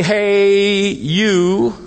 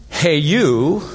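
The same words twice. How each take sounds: First: A higher, louder hail across the room; calling out. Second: A loose, offhand call to a stranger; casual hey you. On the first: Preacher looking around the crowd, calling out. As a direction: call out to catch attention. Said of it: "I can say". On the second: Preacher showing how strangers get hailed, offhand. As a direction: toss it out to nobody in particular. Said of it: "Instead of saying". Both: Shown as a demonstration.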